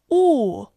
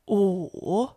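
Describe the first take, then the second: First: The pitch falls sharply from high. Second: The pitch dips low, then rises.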